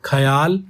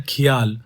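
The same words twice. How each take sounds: First: ख्याल said tight, as khyal; short form of the word; khyal variant. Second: खियाल stretched into three syllables, khi-yaal; long form of the word; khiyal variant. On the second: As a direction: say खियाल with the extra i sound. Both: Shown as a demonstration. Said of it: "ख्याल या खियाल".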